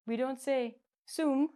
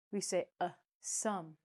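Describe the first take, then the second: First: Mock wrong soom; wrong oo sum. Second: Soft plain sum with uh; right sum. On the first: Teacher showing students the wrong vowel, soom. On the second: Teacher showing students the right vowel, sum with uh. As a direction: sum said with a short uh as in bus. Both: Shown as a demonstration.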